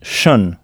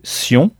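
First: The ending is said as 'shun'. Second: The ending is said as 'see-on'. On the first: This is the English way of saying the ending. "on prononce « shun »" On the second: This is the French way of saying the ending. "au lieu de prononcer « sion »"

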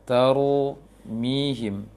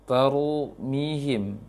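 The two takes are said the same way.

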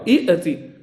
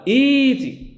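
First: A glottal stop closes the first short syllable. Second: A long vowel replaces the second glottal stop. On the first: The speaker calls it wrong. "الأولى متحركة والثانية ساكنة، هذا خطأ في العربية" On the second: The speaker calls it right. "أبدلوا الثانية حرفا مجانسا للأولى، فقالوا إيتي"

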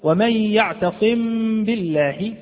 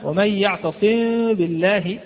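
First: The m is fully sounded with closed lips. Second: The m disappears through widely parted lips. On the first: "ظهرت الميم واضحة جدا، وأظنكم سمعتموها" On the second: "ذهبت الميم وذهبت أختها الباء"

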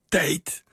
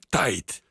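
First: The vowel is the standard, narrower ei sound. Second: The vowel is opened toward an ai sound. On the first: "En niet tijd" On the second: "maar tijd"

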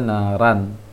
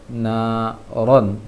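First: The r syllable is thin with an open a. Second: The r syllable is heavy with a rounded vowel. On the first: The speaker calls it wrong. "jangan dibaca na ran" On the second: The speaker calls it right. "mesti ditebalkan"

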